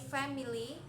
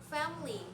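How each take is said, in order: First: The middle vowel is clearly sounded. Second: The middle vowel is dropped. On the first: The speaker calls it wrong. "We cannot say family" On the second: The speaker calls it right. "we only say family"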